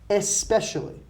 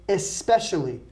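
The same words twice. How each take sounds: No difference in how they are said.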